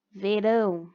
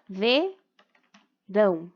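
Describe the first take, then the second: First: Said in the usual way. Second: Verão slowly split into ve, rão; syllable by syllable. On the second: Shown as a demonstration. Teacher demonstrating syllable separation, verão in two slow beats. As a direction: leave a clear gap after ve in verão. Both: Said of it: "a separação das sílabas".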